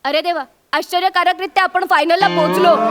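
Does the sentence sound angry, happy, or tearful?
tearful. It is said in a tearful, emotional tone. The speaker is deeply moved at reaching the final. "आता मला खूप रडायला येतंय, emotional होते मी"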